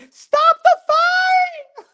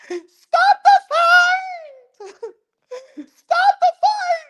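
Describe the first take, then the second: First: Very high, loud, slow laughing scream; mock screaming wife. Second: Shrill hammed-up scream, much higher and louder, slow; mock screaming wife. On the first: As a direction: shriek it like a panicked wife. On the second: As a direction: scream it like a panicked wife ringside. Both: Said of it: "screaming like Apollo Creed's wife".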